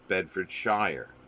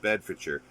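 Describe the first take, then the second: First: The name is said as it is spelled. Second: The name is said the local way. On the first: "but spelled Bedfordshire" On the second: "pronounced Bedfordshire"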